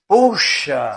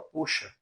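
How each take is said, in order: First: It is said as a surprised exclamation. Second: It is said flatly as a plain command. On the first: An expression of surprise. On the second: Telling someone to pull.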